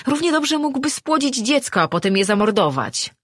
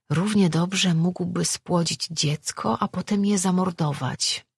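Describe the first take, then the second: First: Much higher, angry accusation; accusing outburst. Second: Recalled words. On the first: Acted. Man likening his fate to a murdered child, outraged. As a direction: throw it out in high-pitched outrage. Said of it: "spojrzał na nią oskarżycielsko". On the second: A narrator's reading. She recalls his outburst in thought.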